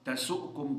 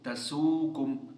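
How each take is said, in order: First: The vowel before the s is short and clipped. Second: The vowel before the s is long.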